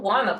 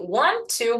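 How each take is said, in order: First: The two words blend into one reduced word. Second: The two words are said fully and separately. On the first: "virando wanna" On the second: "a gente tem aqui want to"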